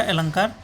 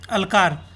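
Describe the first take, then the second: First: अलंकार with a clear nasal ng before k; corrected word. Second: अलकार read as printed, without the nasal ं; misprint read out. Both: Shown as a demonstration. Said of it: "यहाँ पे misprint हो गया".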